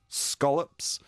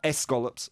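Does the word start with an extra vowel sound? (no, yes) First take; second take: no; yes. First: The word starts directly with the s sound. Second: The word starts with an added e vowel. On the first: The speaker calls it right. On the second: The speaker calls it wrong.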